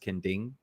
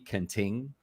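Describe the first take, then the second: First: The second syllable starts with a D sound. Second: The second syllable starts with a T sound. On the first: It is the local pronunciation. The speaker calls it right. "but it's Kending. so the T is supposed to be a D sound" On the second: It is read from the spelling. The speaker calls it wrong. "which I still know foreigners that say Kenting"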